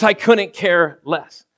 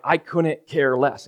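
First: "I couldn't care less" drawn out, stress on "couldn't"; slow emphatic. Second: "I couldn't care less" slowly, each word weighed; slow emphatic. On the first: Repeating the proper phrase to the congregation, slow. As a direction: lean on "couldn't" slowly. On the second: Correcting the saying for the church, slow and pointed. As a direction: spell out "couldn't" deliberately. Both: Shown as a demonstration. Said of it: "And yes, it's couldn't".

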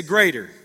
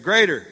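First: Said in the usual way. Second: Loud, bold rallying call; not scared. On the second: Shown as a demonstration. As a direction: say it boldly, louder, to rouse the crowd. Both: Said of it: "Say it like you're not scared".

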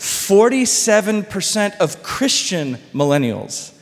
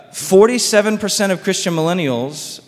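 First: Slow down and stress "Forty-seven percent" so it sinks in; emphatic repeat. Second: Said in the usual way. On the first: Real, not acted. Repeats statistic after "You hear that?.

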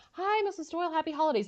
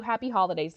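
First: Higher, chipper hello; lightly voiced bright greeting; cheery phone greeting. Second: Said in the usual way. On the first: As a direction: put on holiday cheer for the mother. Frasier greeting Roz's mom.

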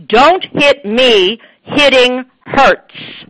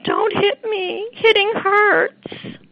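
First: Much louder, slow, emphatic "Don't hit me, hitting hurts."; firm assertive child's script; firm, strong version. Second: Much higher, slow, whimpering "Don't hit me, hitting hurts."; mock timid "Don't hit me"; weak, whiny version. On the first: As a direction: say it with full force to stop the hitter. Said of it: "if you want them to learn how it sounds". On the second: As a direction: plead it like a teary child with no force. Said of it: "That's not how those words sound". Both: Shown as a demonstration.

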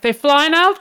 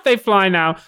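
First: NOW lifted high in a rising question; mock astonished question. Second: NOW falling, at an ordinary pitch; mock confirming answer. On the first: Mocking a movie quip, high questioning tune. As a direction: quote "They fly now" high, rising on "now". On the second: Mocking a movie quip, falling answer tune. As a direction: answer "they fly now" with a settled fall on "now".

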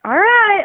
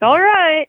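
First: High, drawn-out mocking "All right"; condescending. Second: High, louder, sarcastic "All right"; condescending. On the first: Fisherman answering his calm friend, condescending and high. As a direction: sneer it like you don't believe him. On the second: Retold or imitated. Fisherman repeating his sarcastic reply, condescending and high. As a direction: pretend to agree with a sneer. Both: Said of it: "super condescending like that too".

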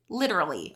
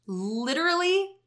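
First: Said in the usual way. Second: "literally" jumps high and stretched; emphatic high. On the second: Real, not acted. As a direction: lift "literally" way up in pitch. Repeats word for emphasis.

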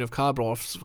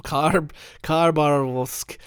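First: "Kharbarovsk" read with a stray R after the first A; mispronounced Khabarovsk. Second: "Khabarovsk" spelled out slowly, no R after the first A; slow careful self-correction to "Khabarovsk"; corrected Khabarovsk. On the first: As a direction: trips over "Kharbarovsk", sliding an R into it. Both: Real, not acted.

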